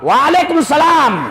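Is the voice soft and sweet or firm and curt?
firm. It is said in a firm, curt voice.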